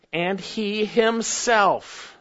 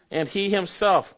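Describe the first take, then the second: First: Slow, drawn-out "And he himself" with weight on "himself"; emphatic he himself. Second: Said in the usual way. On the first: Shown as a demonstration. Preacher stressing the Greek to the congregation, slow and emphatic. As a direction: lean on "himself", slowly. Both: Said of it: "it's emphatic".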